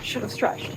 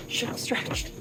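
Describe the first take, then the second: First: "Should have stretched" whispered, breathless and unvoiced. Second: "Should have stretched" softer, almost gone, whispered; fainter breathless whisper. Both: Real, not acted. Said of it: "Calves are killing me".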